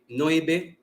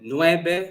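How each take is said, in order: First: It has the local dialect cluster variant. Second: It has the standard n-w cluster.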